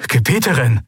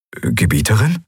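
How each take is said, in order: First: Gebieterin cried out with a falling, pleading insistence; urgent protest. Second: Gebieterin asked with a questioning rise; bewildered, as if he misheard; puzzled. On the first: Aide protests the ruler's order, urgent. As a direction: step forward and protest. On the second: Aide baffled by his mistress's refusal, puzzled. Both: A narrator's reading.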